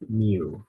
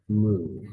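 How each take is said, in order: First: The word does not sound like a moo. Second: The word sounds like a cow's moo. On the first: This is how it is said in physics classes. The speaker calls it wrong. "you might have heard it pronounced mu" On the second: This is the proper Greek name of the letter. The speaker calls it right. "the proper pronunciation is mu, as in the cow mooing"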